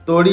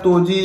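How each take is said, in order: First: The middle consonant sounds like a 'd'. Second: The middle consonant sounds like a 'j'. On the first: The speaker calls it right. "तोड़ी ही बोलते हैं इसको" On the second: The speaker calls it wrong. "तोजी या ऐसा कुछ मत बोलिए"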